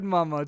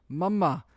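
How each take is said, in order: First: Said in the usual way. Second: Put-on light baby voice, a bit higher; baby saying mama. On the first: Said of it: "So she said". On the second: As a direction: mimic the baby's first word. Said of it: "she kinda just goes".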